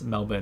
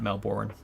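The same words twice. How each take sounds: First: Melbourne is said the Australian way. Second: Melbourne is said the American way. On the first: The speaker calls it right. "she taught me it's Melbourne" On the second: The speaker calls it wrong. "not Melbourne ... I used to say Melbourne like a Yankee"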